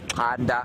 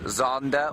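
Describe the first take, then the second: First: The name begins with a click sound. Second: The name begins with a plain z sound. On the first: "if you were to just pronounce that in sort of Zulu way" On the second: "he is known as Xander or Zander by his family"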